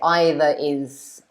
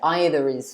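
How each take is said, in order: First: The two vowels meet with no R between them. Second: A slight R sound links the two words. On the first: The speaker calls it wrong. "it's a bit strange, I suppose, to say either is" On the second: The speaker calls it right. "I would insert the R like you wrote there. So I would say"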